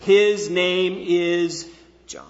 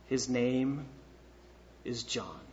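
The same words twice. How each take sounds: First: "His name is John" loud, slow, every word weighted; clear, emphatic. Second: Low, hushed statement with a pause mid-phrase; quiet, understated. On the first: Preacher voices Zechariah's written answer, "His name is John" loudly emphatic. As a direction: declare each word of "His name is John" firmly and separately. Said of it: "He says very clearly, with emphasis". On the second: Preacher reads out the written phrase to the congregation, quiet and low. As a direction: say it softly and low, in two pieces. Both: Retold or imitated.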